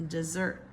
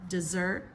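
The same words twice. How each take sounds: Both takes have the same delivery.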